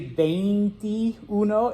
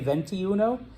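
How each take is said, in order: First: It is said with a careful Spanish vowel sequence. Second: It begins like the English word 'venti'. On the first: "you don't have to say veintiuno" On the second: "like you're ordering a venti"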